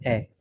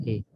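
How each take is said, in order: First: ए said as the short vowel of apple, open and clipped; ए with a brief flat a as in ant; short a sound. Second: ए said as the long vowel that names the letter, like ay; ए stretched into the letter name ay; long a sound. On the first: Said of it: "short sound जो है". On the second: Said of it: "और long sound ये ए वाली आवाज़ है". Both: Shown as a demonstration.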